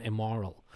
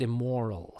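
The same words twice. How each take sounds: First: "immoral" with an open, unrounded British O. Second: "immoral" with the O rounded, North American style. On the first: Actress missing the North American sound, unrounded O. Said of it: "and she didn't". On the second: Dialect coach's correction for a Canadian play, rounded O. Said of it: "should have sort of rounded the O". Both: Shown as a demonstration.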